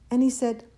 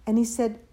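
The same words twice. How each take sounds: The two takes are said the same way.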